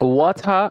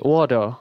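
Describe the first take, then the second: First: It is said in a British accent. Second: It is said in an American accent. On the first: "এগুলো হচ্ছে আমাদের British accent" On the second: "American অ্যাকসেন্টে ওয়াটার তো বলি"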